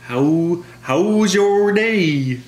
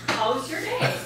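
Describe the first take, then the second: First: High, slow, overdone Minnesota "how's your day?"; a badly hammed-up Minnesota accent; failed Minnesota accent. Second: Easy Minnesota "How's your day?" with a falling end; lightly voiced Minnesota drive-thru greeting; real Minnesota accent. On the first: Coworker mocks her Minnesota accent, high and slow. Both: Shown as a demonstration. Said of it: "That's not how we sound it".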